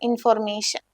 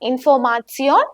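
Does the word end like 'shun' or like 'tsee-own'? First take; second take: shun; tsee-own. First: The ending sounds like 'shun'. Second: The ending sounds like 'tsee-own'. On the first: This is the English pronunciation. "ഇംഗ്ലീഷിൽ ഇൻഫോർമേഷൻ" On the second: This is the German pronunciation. "ഇവിടെ ഇൻഫോർമാസിയോൺ"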